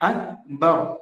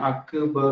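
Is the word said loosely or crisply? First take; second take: crisply; loosely. First: The word is said in a crisp, tight way. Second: The word is said in a loose, slack way. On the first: The speaker calls it right. "പിന്നെ എങ്ങനെ കൊടുക്കാം?" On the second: The speaker calls it wrong. "വളരെ വികലമായ ഭംഗി കുറഞ്ഞ ഒരു രീതിയാണ്"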